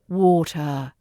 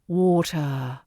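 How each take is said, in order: No difference in how they are said.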